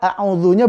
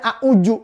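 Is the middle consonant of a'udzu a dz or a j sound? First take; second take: dz; j. First: The middle consonant is a soft dz sound. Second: The middle consonant is a j sound. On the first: The speaker calls it right. "A'udzunya betul" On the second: The speaker calls it wrong. "Coba kalau bacanya a'uju. Waduh. Jadi kurang enak"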